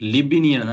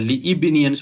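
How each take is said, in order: First: 'Li' runs straight into 'bni' without a vowel. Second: A separate 'i' vowel is sounded before 'bni'. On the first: The speaker calls it right. "தான் சொல்லணும்" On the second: The speaker calls it wrong. "சொல்லக்கூடாது"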